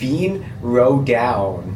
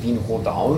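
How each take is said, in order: First: The name is said with English-like sounds. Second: The name is said with local German sounds. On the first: The announcement actually says it this way. "die sagen Wien Rodown" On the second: The announcement does not say it this way. "die sagen nicht Wien Rodown"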